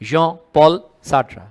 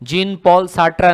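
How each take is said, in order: First: The first name has an 'aw' vowel. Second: The first name has an 'ee' vowel. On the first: The speaker calls it right. "इसको ऐसे बोलना है" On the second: The speaker calls it wrong. "जीन Paul साट्रा नहीं है ये"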